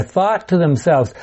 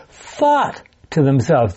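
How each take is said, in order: First: Said in the usual way. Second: THOUGHT drawn out slowly, then a brief break; stress on THOUGHT. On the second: Shown as a demonstration. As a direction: lean long and hard on "thought". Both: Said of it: "They didn't say anything aloud".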